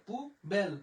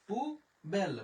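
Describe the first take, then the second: The two takes are said the same way.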